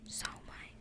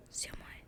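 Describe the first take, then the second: First: Whispered "Siomai" with "sow" as the first syllable; tentative "Siomai", opening on an "ow" vowel; unsure pronunciation. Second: Whispered "Siomai" with "see" as the first syllable; tentative "Siomai", opening on an "ee" vowel; unsure pronunciation. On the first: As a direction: try "Siomai" as SOW-my, questioning. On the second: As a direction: try "Siomai" as SEE-my, questioning. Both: Real, not acted. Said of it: "Not sure".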